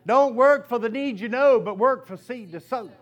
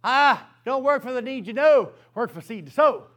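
First: A preacher's punchline, loud and firm; preached saying. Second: Firm preacher's refrain; preached saying again. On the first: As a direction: proclaim it to the congregation. Preacher proclaims key saying. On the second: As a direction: proclaim the motto louder. Preacher repeats key saying. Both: Acted.

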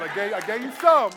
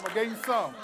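First: Teasing shout. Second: Said in the usual way. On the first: Real, not acted. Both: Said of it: "you gotta wait till next week".

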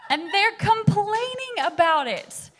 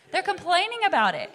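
First: Sung line. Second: Said in the usual way. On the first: Pretend. Sings the line playfully.

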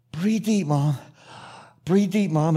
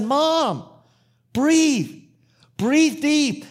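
First: Measured coaching in short phrases, with pauses; calmer coaching. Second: High, raised urgent plea; urgent exhortation. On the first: Son coaches mother through breaths, calmer coaching. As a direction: coach her through each breath without shouting. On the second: Son tells chattering mother to breathe, urgent exhortation. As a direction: call it out, word by word, to cut through her chatter. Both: Retold or imitated.

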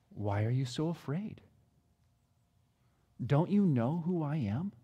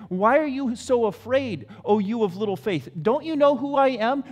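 First: Much softer, lower and tender; gentle question. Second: Firm, slightly raised challenge; firm rebuke. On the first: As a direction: ask softly, almost consoling. Jesus asks gently, retold again. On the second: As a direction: press the frightened men for an answer. Jesus questions frightened disciples. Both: Acted.

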